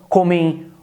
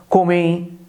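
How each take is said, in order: The two takes are said the same way.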